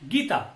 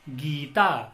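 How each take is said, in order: First: The first vowel is cut short. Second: The first vowel is held long. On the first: The speaker calls it wrong. "अगर हमने कहा गीता तो यह इसका उच्चारण क्या हो जाएगा? गलत हो जाएगा।" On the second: The speaker calls it right. "इसका उच्चारण हम करेंगे गीता"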